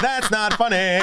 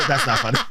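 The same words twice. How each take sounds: First: That's not funny, slow, higher, dissolving into giggles; can't keep a straight face; laughing harder. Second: Says That's not funny through a chuckle; half-laughing protest. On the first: Laughs through protest again. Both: Real, not acted.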